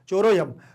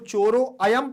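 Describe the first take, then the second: First: The vowel 'a' is merged and barely heard. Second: The vowel 'a' is pronounced as a separate sound. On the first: The speaker calls it right. "आ का उच्चारण केवल और केवल हमें महसूस होना चाहिए" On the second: The speaker calls it wrong. "जब आप इसको चोरो अयम पढ़ोगे तो आपका गलत माना जाएगा"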